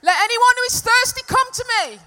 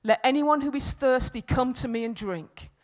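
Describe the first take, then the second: First: Full-voiced shout, high and sustained; loud proclamation. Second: Slightly raised, emphatic scripture reading; loud voice. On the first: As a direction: cry it out to a huge crowd with no microphone. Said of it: "That's what it would have been like". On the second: Acted. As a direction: read it out firmly, projecting a little. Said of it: "he said in a loud voice".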